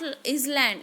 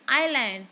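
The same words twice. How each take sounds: First: An S sound is heard before the L. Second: No S sound is heard before the L. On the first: The speaker calls it wrong. "We are pronouncing is not island" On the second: The speaker calls it right. "it is island. So it is very clearly that S is silent"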